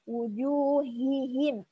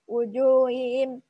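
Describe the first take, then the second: First: The h sound is pronounced clearly. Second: The h sound is faint and hidden. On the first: The speaker calls it right. "harusnya diperjelas" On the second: The speaker calls it wrong. "Jadi nggak jelas gitu"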